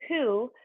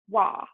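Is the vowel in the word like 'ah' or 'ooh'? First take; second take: ooh; ah. First: The word has an 'ooh' vowel sound. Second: The word has an 'ah' vowel sound. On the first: The speaker calls it right. "So it's pronounced who, like ooh" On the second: The speaker calls it wrong. "So it would sound kind of like w, ah, wah"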